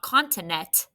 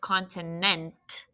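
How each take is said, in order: First: The ending has only a t sound. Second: The ending has an n-t blend. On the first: The speaker calls it wrong. "Don't just put a T. It's not continent" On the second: The speaker calls it right. "There's a tricky blend at the end. Right, it's N T"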